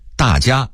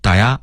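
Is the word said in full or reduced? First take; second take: full; reduced. First: Both syllables are said clearly and in full. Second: The syllables run together quickly and blur.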